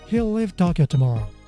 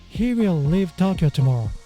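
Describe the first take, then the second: First: He and will merge into one short syllable. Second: He and will are said as two full words. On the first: "example sentences using contraction" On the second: "the original sentence"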